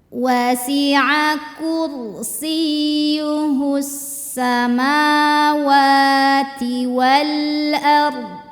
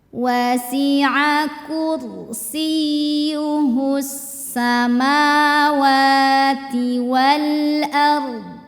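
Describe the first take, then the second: The two takes are said the same way.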